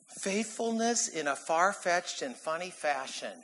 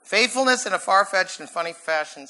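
First: Measured tongue twister. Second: Quicker tongue twister. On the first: Presents his alliterative sermon point. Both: Shown as a demonstration.

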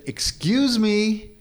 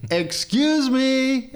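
First: Slow, high drawn-out call. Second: Very high, slow, drawn-out excuse me; insistent call. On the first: Neighbor keeps raking, so he calls again, drawn out. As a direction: stretch it out to get his attention. Calling louder to unresponsive neighbor. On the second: Still ignored, calling over the fence, pitched way up. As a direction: sing it out high to be heard. Calling again, even higher. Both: Retold or imitated.

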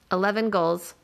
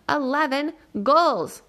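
First: Said in the usual way. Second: Louder. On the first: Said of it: "Eleven goals," Nat says, louder this time". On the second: A narrator's reading. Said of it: "Nat says, louder this time".

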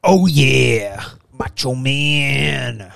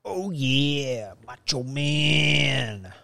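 First: Slow, drawn-out wrestler growl; Macho Man impression. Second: Softer, very slow wrestler drawl; retried Macho Man. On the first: Host tries a wrestler impression, slow drawn-out. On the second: Retold or imitated. Host retries a bad wrestler impression, soft and slow. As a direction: try the wrestler again, quieter. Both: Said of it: "That's not a good Macho Man".

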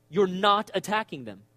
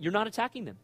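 First: "You're not attacking them" said slower and firmer, leaning on "You're"; slow down and press "You're" home the second time; deliberate, weighty "You're not attacking them"; emphatic repeat. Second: Said in the usual way. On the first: Shown as a demonstration.

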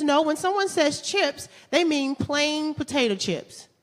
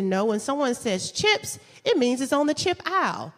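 First: Put-on slow, pedantic boyfriend. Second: Insistent. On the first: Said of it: "and he says". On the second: Retold or imitated. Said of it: "I said".

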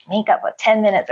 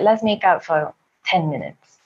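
First: Incredulous inner echo. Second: Said in the usual way. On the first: Retold or imitated. Woman's silent reaction to his suggestion, incredulous echo. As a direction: throw the proposal back in disbelief. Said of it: "In my mind, I'm like". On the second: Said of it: "he's like".

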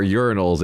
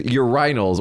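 First: "urinals" said as YUR-in-als, stressed on the first syllable; normal person's pronunciation. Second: "urinals" said as yoo-RYE-nals; stress on second syllable. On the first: Host correcting the word for listeners, "urinals" as YUR-in-als. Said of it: "if you're a normal person". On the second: Host describing the pub toilet, "urinals" as yoo-RYE-nals. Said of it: "or urinals if you're a normal person". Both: Shown as a demonstration.

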